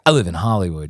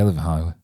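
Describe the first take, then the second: First: It is said in a showy, proud way. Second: It is said in a low-key, offhand way. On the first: The speaker thinks living there is impressive. The speaker calls it wrong. "you don't say, like" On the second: Living there is nothing special. The speaker calls it right. "You say it like this"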